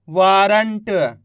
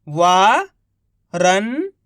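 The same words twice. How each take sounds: First: Said in the usual way. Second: Each syllable drawn out very slowly; slow syllable-by-syllable reading. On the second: Shown as a demonstration. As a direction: sound out सुरंग slowly as सु-रं-ग, one sound at a time. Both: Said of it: "एक अक्षर का उच्चारण करके".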